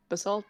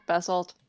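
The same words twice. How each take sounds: First: "Basalt" with weak first vowel, buh-SALT; alternative pronunciation. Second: "Basalt" with full first vowel, BASS-alt; alternative pronunciation. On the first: Player checking a name, "Basalt" as buh-SALT. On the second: Player checking a name, "Basalt" as BASS-alt. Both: Shown as a demonstration. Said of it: "okay, is it Basalt?".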